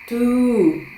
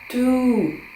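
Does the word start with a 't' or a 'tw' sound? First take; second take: t; t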